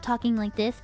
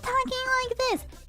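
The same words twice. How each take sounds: First: The voice is at a normal, lower pitch. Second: The voice is put on at a high pitch. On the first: This is the natural speaking voice. "instead of talking like this" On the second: This is a voice put on for the stream. "she was putting on a high-pitched voice"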